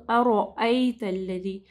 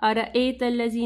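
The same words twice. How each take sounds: First: अरअयतल्लज़ी, slowed, with a heavy र; correct reading. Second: अरअयतल्लज़ी said quickly with a light र; wrong reading demo. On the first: Teacher demonstrating the right reading. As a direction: draw अरअयतल्लज़ी out with a thick र. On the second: Teacher showing the mistake to avoid. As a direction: rush अरअयतल्लज़ी with a thin र. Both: Shown as a demonstration. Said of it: "नहीं पढ़ना".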